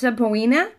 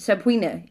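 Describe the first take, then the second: First: A separate O vowel is heard after the P. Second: No separate O vowel is heard after the P. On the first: This is the older pronunciation. "if you go way, way back, it was pronounced subpoena" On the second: This is the current pronunciation. "It's subpoena. ... So we kind of skipped past the O"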